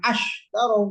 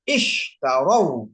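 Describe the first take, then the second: First: The first vowel is an 'a' sound. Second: The first vowel is an 'i' sound. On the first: The speaker calls it wrong. "jangan ash tarau, nggak boleh" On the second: The speaker calls it right. "Ini ish tarau"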